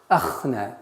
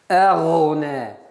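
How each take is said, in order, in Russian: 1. Средний согласный — звук кх. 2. Средний согласный — звук гх. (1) "Нет" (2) "Гайн твердый"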